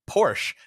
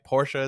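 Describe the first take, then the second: First: It is said the usual American way. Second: It is said the non-American, original way. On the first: The speaker calls it wrong. "I am American and we say Porsche in America" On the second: The speaker calls it right. "Porsche is the correct way to say that"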